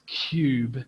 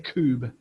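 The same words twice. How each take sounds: First: A y sound comes between k and oo. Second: The k goes straight into the oo vowel. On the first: The speaker calls it right. "There's a y before that" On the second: The speaker calls it wrong. "We don't say cube"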